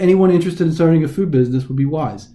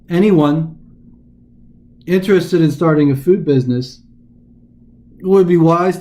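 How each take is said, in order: First: It flows smoothly with no pauses inside. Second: It is broken by exaggerated pauses inside. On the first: The speaker calls it right. "We would just say" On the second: The speaker calls it wrong. "I'm just going to exaggerate any kind of punctuation I find"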